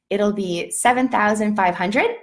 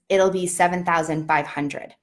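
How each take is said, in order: First: The voice rises at the end like a question. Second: The voice falls at the end like a statement. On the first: The speaker sounds unsure about the price. The speaker calls it wrong. "we end sentences as questions instead of statements" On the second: The speaker sounds confident about the price. The speaker calls it right. "versus a statement"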